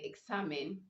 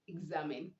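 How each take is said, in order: First: The x sounds like ks. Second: The x sounds like gz. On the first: The speaker calls it wrong. "you don't say examine" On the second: The speaker calls it right. "you say exam, examine"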